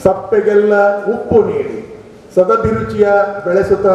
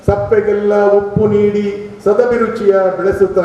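Both takes have the same delivery.

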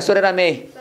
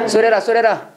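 First: Said in the usual way. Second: "소레라" run together as one quick word; linked "so that I" sounds. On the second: Shown as a demonstration. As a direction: blur "So that I" into "소레라", the t flapped to r. ("소레라"를 한 단어처럼 빠르게 이어서) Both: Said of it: "진짜 빨리 읽고 동사만 액센 딱".

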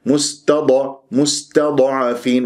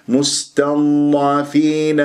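First: مستضعفين with an echoing vowel after ض, like mustada'afeen; bouncing dad. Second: Slow, level مستضعفين with ض flowing into ع; correct held dad. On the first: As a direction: wrongly pop the ض of مستضعفين. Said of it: "يقلقل الضاد الساكنة". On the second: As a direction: hold the heavy ض of مستضعفين with no bounce. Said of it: "بهذه الطريقة". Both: Shown as a demonstration.

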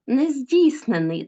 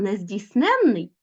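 First: Нездійснений stressed on -DIIS-; stress on the root. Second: Нездійсненний stressed on -NEN-; stress on the suffix. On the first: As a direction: say нездійснений as nez-DÍIS-ne-nyi. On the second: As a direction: say нездійсненний as nez-diis-NÉN-nyi. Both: Shown as a demonstration. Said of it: "звертайте увагу на наголос".

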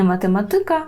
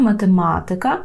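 First: "математика" with stress on ТИ; stress on next-to-last syllable. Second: "математика" with stress on МА before "тика"; stress on third-last syllable. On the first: Teacher showing the wrong form, "математика" stressed on ТИ. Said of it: "так, маємо ика". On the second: Teacher correcting the stress, "математика" stressed on the second МА. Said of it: "Не математика". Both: Shown as a demonstration.

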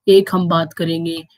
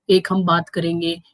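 No difference in how they are said.

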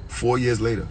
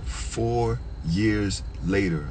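First: Said in the usual way. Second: "Four years later" drawn out, word by word; slow emphasis. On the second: Real, not acted. Storyteller stressing the long wait, slow emphasis.

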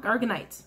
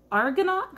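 First: Argonite said as AR-guh-nite, the fixed ending; corrected pronunciation. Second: Argonaught said as AR-go-nawt, wrong ending; mispronounced. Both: Real, not acted. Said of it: "I can't pronounce them that well".

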